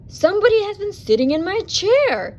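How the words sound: It is said in a loud, growly voice.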